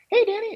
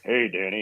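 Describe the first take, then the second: First: It is said in a high-pitched voice. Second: It is said in a low, normal voice. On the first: This is how an opposite kind of man would greet him. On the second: This is how the man really greets him.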